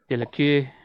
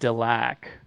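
First: The name is said in a French style. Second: The name is said in a plain English style. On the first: "rolling it around with like French in my mouth" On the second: "I've always been saying Delac"

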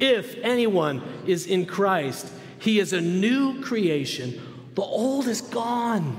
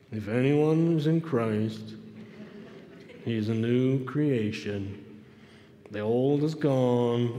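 First: It is read in a positive, excited voice. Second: It is read in a gloomy, downcast voice. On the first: The speaker calls it right. "You can use your Tigger voice or just at least a positive, excited voice" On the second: The speaker calls it wrong. "You cannot read this in an Eeyore verse. I mean, try it"

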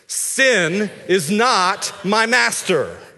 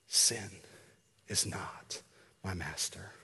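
First: It is said loudly and with strong energy. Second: It is said in a quiet whisper. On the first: "with some gusto" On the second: "I want you just to whisper it"

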